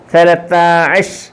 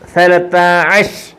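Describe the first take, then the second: First: It ends with a clipped 'ash' and a 't' sound. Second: The same.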